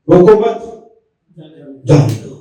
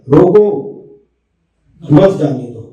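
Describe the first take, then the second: First: There is a pause after मत. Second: There is a pause after रोको.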